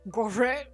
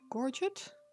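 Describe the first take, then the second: First: It is said with a French-style pronunciation. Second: It is said with a plain English pronunciation. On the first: "if you're French" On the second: "That's how I would pronounce it"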